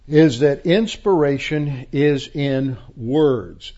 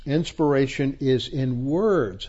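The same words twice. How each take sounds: First: Slow, weighty "is that inspiration is in words" with IS leaned on hard; stress on is. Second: Said in the usual way. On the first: Shown as a demonstration. Teacher hammering home that inspiration is in words, slow emphasis. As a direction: plant "is" like a verdict, slowly.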